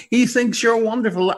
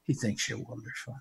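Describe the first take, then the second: First: Louder, higher, stress on he; emphatic. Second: Hushed whisper of the same line. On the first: Preacher calling to listeners, emphatic and loud. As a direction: call it out so they hear. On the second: Preacher whispering God's love to the listener, hushed. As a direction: drop it to a whisper to draw them in. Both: Real, not acted.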